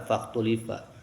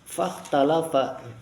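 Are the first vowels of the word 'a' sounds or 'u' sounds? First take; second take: u sounds; a sounds. First: The word is said with 'u' then 'i' vowels. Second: The word is said with 'a' vowels throughout. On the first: The verb is passive with no stated subject. The speaker calls it wrong. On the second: The verb is active and has its own subject. The speaker calls it right.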